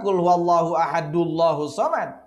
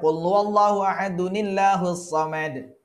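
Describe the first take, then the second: First: Ahadu runs straight into Allah without 'ni'. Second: A linking 'ni' joins ahadu to Allah. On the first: The speaker calls it wrong. "bukan ... Itu salah" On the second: The speaker calls it right.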